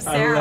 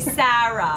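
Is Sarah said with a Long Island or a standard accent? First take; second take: standard; Long Island. First: It is said in a standard, non-regional accent. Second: It is said in a Long Island accent. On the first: This is the usual way the name is said. "instead of Sarah" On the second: This is how a Long Islander says the name. "he calls me Sarah"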